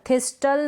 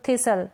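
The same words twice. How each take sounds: First: थिस्टल with t after s; T sounded. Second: थिसल with no t after s; silent T. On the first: Teacher showing the misreading, थिस्टल with t sounded. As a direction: say थिस्टल as "this-tal". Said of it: "नहीं पढ़ेंगे". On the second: Teacher explaining the silent T, थिसल without t. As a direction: say थिसल as "thi-sal". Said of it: "टी silent है ना". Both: Shown as a demonstration.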